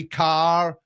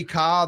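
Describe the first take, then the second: First: "car" drawn out with a hard R; American hard R. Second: "car" with the R left silent; British "car". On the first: Showing how Americans say it, rhotic "car". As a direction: sound the R strongly at the end of "car". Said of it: "remember to do a hard R". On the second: Welsh speaker showing how we say it, non-rhotic "car". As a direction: say "car" with an open vowel and no R. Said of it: "we say car, they say car". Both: Shown as a demonstration.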